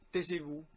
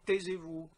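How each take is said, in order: First: It is said in a plain, ordinary voice. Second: It is said in a louder voice. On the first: The speaker is only asking for quiet. "vous leur disiez" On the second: The speaker is raising the volume to be obeyed. "vous parlez plus fort"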